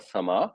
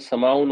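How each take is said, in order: First: The word ends on a bare vowel. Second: The word ends with an 'un' sound. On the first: The reader stops on this word. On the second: The reader carries on without stopping.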